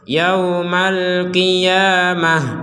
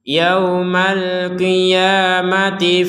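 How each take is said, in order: First: The word ends with an h sound. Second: The word ends with a t sound. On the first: The reader stops after this word. "Ini dibaca huruf H karena kita berhenti" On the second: The reader continues into the next word. "maka huruf ta ini kembali menjadi huruf ta"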